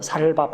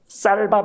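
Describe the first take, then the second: First: The first consonant is a plain s. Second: The first consonant is a tense s. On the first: "우리 경상도에서 이야기하자면 ... 살밥 그럽니다" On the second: "쌀밥 해보라면"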